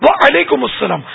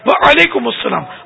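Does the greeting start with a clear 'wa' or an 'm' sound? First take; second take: wa; wa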